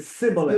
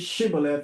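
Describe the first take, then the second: First: The word begins with an 's' sound. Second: The word begins with a 'sh' sound. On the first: The speaker calls it wrong. "He didn't pronounce the H" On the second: The speaker calls it right. "He didn't say Shibboleth"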